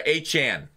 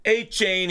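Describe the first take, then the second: First: Achane said as ay-CHAHN with a flat a; corrected name. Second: Achane said as ay-CHAYN with a long ay; wrong name said. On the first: Correcting himself on the player's name, Achane as ay-CHAHN. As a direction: Achane ending in a short ahn. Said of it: "sorry, Achane". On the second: Wrong take of the player's name, Achane like chain. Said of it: "Not Achane, sorry, Achane". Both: Shown as a demonstration.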